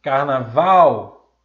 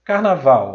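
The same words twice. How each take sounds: First: Carnaval slow and loud, VAL stretched long; exaggerated final stress. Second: Carnaval said loudly, weight on VAL; stressed last syllable. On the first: Teacher showing the stressed syllable in Carnaval, VAL loud and drawn out. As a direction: draw out the VAL in Carnaval, loudly. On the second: Teacher presenting the example word Carnaval, loud with final stress. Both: Shown as a demonstration. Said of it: "que é a sílaba tônica".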